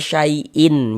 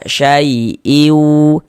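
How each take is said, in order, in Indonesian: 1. Bunyi n di akhir diucapkan penuh. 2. Bunyi n di akhir menyatu menjadi semi-vokal sengau. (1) "jangan dibaca syai'in" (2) "Kita baca syai'iu"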